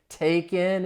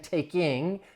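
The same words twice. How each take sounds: First: The ending is said without the g sound. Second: The ending is said fully with the g sound. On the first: "you hear that G dropping" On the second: "I'm not saying taking"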